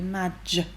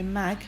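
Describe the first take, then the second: First: The syllable ends with a j sound. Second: The syllable ends with a hard g sound. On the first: The speaker calls it right. "we say madge. So the g sound is a j" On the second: The speaker calls it wrong. "We don't say mag"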